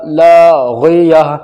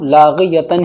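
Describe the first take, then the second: First: The word ends in a soft 'ah' sound. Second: The word ends in a full 'tan' sound. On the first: The reciter stops on this word. "तो गोलता पर जब हम रुकते हैं उसका हा बन जाता है रुकने की हालत में" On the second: The reciter continues without stopping. "बगैर रुके हम लाग़ियतन ही पढ़ेंगे"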